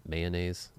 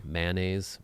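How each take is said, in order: First: "Mayonnaise" as MAY-uh-naze; current pronunciation. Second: "Mayonnaise" as MAN-uh-naze, questioning; trying childhood pronunciation. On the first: Testing how they say it now, MAY-uh-naze. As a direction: say "Mayonnaise" starting with a long MAY. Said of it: "This is what I say now". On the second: Wondering how they said it growing up, MAN-uh-naze. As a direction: say "Mayonnaise" with a short A, unsure. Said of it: "Did I say that growing up". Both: Shown as a demonstration.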